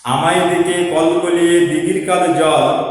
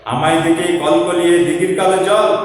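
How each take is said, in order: The two takes are said the same way.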